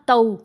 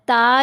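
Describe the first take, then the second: First: The vowel glides from 'a' toward 'w'. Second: The vowel is a plain long 'aa' sound. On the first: The speaker calls it right. "आवाज़ को टेढ़ा कर लेना" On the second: The speaker calls it wrong. "ता या तू नहीं पढ़ना"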